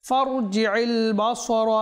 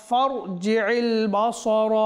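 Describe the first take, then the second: No difference in how they are said.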